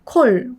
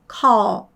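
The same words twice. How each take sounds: First: The L is made with the tongue further back. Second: The L is made with the tongue pushed forward. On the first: The speaker calls it wrong. "call이 아니라" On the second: The speaker calls it right. "혀가 저 앞으로 간다는 걸 느낄 수 있으세요"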